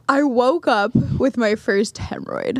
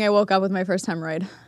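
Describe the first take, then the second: First: The last word is said slowly. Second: The last word is said quickly.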